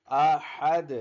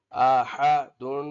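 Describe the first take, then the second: First: अहद with the final दाल silent-stopped, no vowel after it; pausal form. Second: अहदुन slow and loud, rising, with full नुन ending; full tanween form. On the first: Teacher shows stopping on a consonant. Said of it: "वक्फन". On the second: Teacher gives the full form before the pause. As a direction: draw out अहदुन and sound the final नुन. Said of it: "वक्फन में बोलते हैं हम". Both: Shown as a demonstration.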